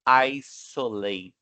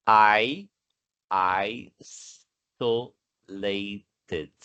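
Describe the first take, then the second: First: Said in the usual way. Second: Isolated stretched out slowly, every syllable clear, S like a real S; slow pronunciation demo. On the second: Shown as a demonstration. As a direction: spell out isolated slowly, S sounding as S not Z. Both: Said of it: "Mas a pronúncia é".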